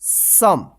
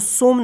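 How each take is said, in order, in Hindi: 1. स्वर 'uh' जैसा है। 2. स्वर 'oh' जैसा है। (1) "सम पढ़ेंगे" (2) "इसको सोम नहीं"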